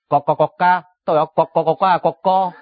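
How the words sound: It is said with a Cantonese accent.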